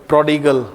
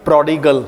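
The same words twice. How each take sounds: The two takes are said the same way.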